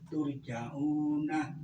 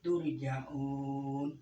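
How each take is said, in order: First: The word ends with a final vowel sound. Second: The word ends on a consonant, with no vowel. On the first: The reading continues without pausing. "dibaca turja'una lebih sore enggak apa-apa" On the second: The reading pauses at the end of the verse. "Wakof namanya ya"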